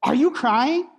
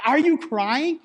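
First: Blunt, dismissive "Are you crying?"; flat, impatient question to a crying wife; mock unsympathetic. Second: The same blunt "Are you crying?", pushed higher; impatient, unimpressed question; scoffing at his wife's tears; mock unsympathetic. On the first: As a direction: ask it like tears are an inconvenience. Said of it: "in that same tone".

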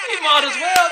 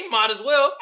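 First: Louder and higher on the repeat; shouted repeat. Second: Said in the usual way. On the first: Shown as a demonstration. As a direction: yell it back the second time.

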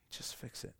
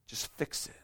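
First: Whispered plea. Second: Softer, breathy repeat; fading plea. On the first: Believer's plea to God ending in a whisper. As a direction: whisper it, almost gone. Repeated demand fading to whisper. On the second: Believer's plea to God fading into a hush. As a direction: let the plea drain away. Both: Pretend.

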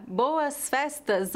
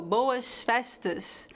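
First: Said in the usual way. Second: Slow Rio accent, S turned to sh; Carioca accent. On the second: Shown as a demonstration. Teacher comparing two pronunciations, Carioca accent. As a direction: say it the Carioca way, hushing each S. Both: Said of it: "qual é a pronúncia correta?".

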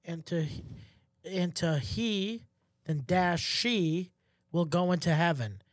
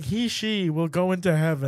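First: Slow and broken up, word by word; sounding out a printed form slowly; reading it out. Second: HE-SHE run together, louder, with a laugh; retold blind reading, straight through; distraught misreading. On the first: Retold or imitated. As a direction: read HE, then SHE as separate options with long gaps. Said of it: "it, like, says". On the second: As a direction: blurt out both options as one phrase, half laughing. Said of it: "I was just reading it".

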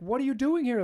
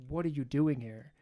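First: High, loud alarmed demand; husband startled by his mistress; shocked outburst. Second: Said in the usual way. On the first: Retold or imitated. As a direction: blurt it out in panic.

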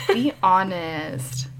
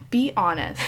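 First: Breaking into a giggle mid-phrase; laughing whisper. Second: Said in the usual way. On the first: Shown as a demonstration.

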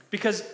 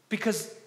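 Both takes have the same delivery.

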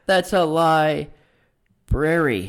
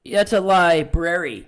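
First: Very slow, low, "library" split by a long pause after "lie"; laboured pun on "library". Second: Slow, lower delivery landing "library" as "lie... brary"; punning stress on "library". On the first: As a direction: spell out the joke, stretching "lie... brary". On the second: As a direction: draw out the "lie" in "library" for the pun. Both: Shown as a demonstration. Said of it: "Get it?".

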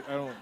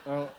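Both takes have the same delivery.

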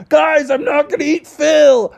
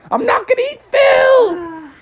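First: High, slow pleading bear voice; earnest reassurance. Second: Very high, slow shouted plea through laughter; laughing pained shout. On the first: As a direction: plead calmly that you're harmless. Bubby reassures townspeople. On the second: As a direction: shout the denial while being poked. Poked with pitchforks. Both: Acted.

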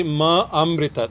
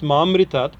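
First: "ma amritat" slowly, the two A's kept apart; overemphasized word break. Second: "ma amritat" run together as one word; "ma amritat" joined, as in "maamritat"; merged long A. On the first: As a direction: overemphasize "ma", then restart on "amritat". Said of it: "Overemphasize it to make sure". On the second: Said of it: "by grammar". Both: Shown as a demonstration.

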